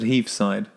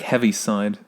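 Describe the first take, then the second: First: The first part has one syllable, like 'heave'. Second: The first part has two syllables, like 'heavy'. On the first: This is how the other person says it. "you pronounce it heave side" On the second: This is how the written word looks. "here it looks like heavy side"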